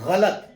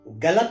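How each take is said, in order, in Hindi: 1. यह गले वाली फ़्रिकेटिव 'gh' की ध्वनि से शुरू होता है। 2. यह सादे स्टॉप 'g' की ध्वनि से शुरू होता है। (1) "ग के नीचे नुक्ता लगा है" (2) "गलत नहीं"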